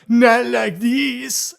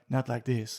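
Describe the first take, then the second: First: The line is said in a melodramatic, over-the-top way. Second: The line is said in a plain, understated way. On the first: It is a jokey imitation blown out of proportion. "hilariously over the top we accentuated that" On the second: It is how the line sounds in the original film. "she's just like"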